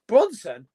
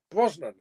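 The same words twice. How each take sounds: First: "Bronson?" said with an n after the r sound, as if asking; puzzled "Bronson?" with a questioning fall; wrong name said. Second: "Brosnan." with the s before the n, said firmly; settling on "Brosnan." as the right name; corrected name. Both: Shown as a demonstration.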